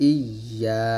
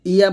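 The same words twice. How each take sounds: First: "ইয়া" as iy-yaa, the y held; doubled-y pronunciation. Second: "ইয়া" as a quick i-ya with single y; wrong pronunciation. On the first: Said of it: "তাসদিদের উচ্চারণটা". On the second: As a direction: say "ইয়া" short, without doubling the y. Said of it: "ইয়া বলবেন না". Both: Shown as a demonstration.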